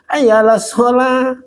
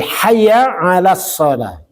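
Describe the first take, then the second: First: The opening h and throat sounds are dropped. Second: The opening h and throat sounds are clearly pronounced. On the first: It no longer invites people to prayer. The speaker calls it wrong. "Oh itu nggak diajak sholat tuh" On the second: It calls people to come to prayer. The speaker calls it right. "Makanya bacanya yang benar"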